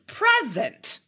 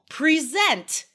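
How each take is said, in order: First: The stress is on the first syllable. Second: The stress is on the second syllable. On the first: It is a noun meaning a gift. "Totally different meaning than" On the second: It is a verb. "verbs. Second syllable is stressed"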